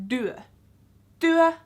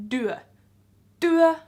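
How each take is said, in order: Both takes have the same delivery.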